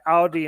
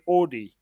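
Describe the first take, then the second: First: It uses the pronunciation common outside South Africa. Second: It uses the pronunciation common in South Africa. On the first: This is how other countries say it. "in other countries they say Audi" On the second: This is how South Africans say it. "we say Audi"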